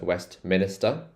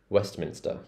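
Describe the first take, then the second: First: The end sounds like 'minister', with an extra syllable. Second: The end sounds like 'minster', without an extra syllable. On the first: The speaker calls it wrong. "a lot of people mispronounce this as Westminster" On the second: The speaker calls it right. "It's not minister, it's Minster"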